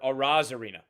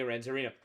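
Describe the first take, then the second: First: The name has no added N sound. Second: The name has an added N sound. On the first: The speaker calls it right. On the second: The speaker calls it wrong.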